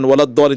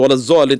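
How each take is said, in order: First: The doubled consonant is pronounced as a d sound. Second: The doubled consonant is pronounced as a z sound. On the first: The speaker calls it right. "তাকে বলা হয় বলেন" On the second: The speaker calls it wrong. "তিনি বলেন"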